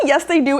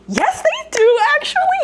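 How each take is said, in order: First: Said in the usual way. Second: Very high squeaky correction; mock-sweet rebuttal. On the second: Real, not acted. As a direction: sing it out high, stretched and exasperated. Sarcastic rebuttal of commenters.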